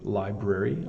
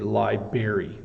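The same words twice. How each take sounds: First: The R after the B is clearly sounded. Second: The R after the B is dropped. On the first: The speaker calls it right. "The B R is pronounced, the br" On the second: The speaker calls it wrong. "some people say library. Don't don't say that"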